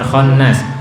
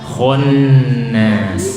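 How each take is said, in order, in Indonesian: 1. Bunyi kh di awal tipis dan ringan. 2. Bunyi kh di awal tebal dan berat. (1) "bukan khannas" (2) "Kho tebal"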